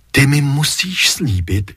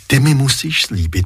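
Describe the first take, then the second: First: "ty" stressed first, slowed. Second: "mi" stressed, rest even. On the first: Mother insisting to her son, weight on "ty". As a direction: lean on "ty", YOU must promise. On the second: Mother pleading with her son, weight on "mi". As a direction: lean on "mi", you must promise ME. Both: Acted.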